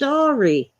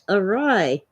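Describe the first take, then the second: First: The word is sounded out as 'aw-ree'. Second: The word is not sounded out as 'aw-ree'. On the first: The speaker calls it wrong. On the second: The speaker calls it right.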